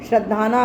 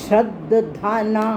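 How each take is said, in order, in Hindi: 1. बीच की d ध्वनि पर ज़ोर नहीं दिया जाता। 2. बीच की d ध्वनि साफ़ तौर पर ज़ोर देकर बोली जाती है। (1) "अगर बोलोगे तो गलत हो जाएगा।" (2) "द पे स्ट्रेस दे के बोलना हमने।"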